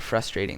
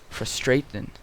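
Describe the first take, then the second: First: It is said in an American accent. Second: It is said in a British accent. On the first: "They don't say frustrating" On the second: "They say frustrating"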